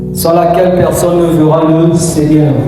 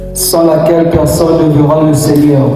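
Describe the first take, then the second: No difference in how they are said.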